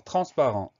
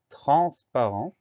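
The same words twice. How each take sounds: First: Said in the usual way. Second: TRANSPARENT slow and louder, syllables drawn out; slow dictation. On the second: Shown as a demonstration. Teacher announcing the third word, slow dictation. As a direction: stretch "transparent" out clearly for spelling.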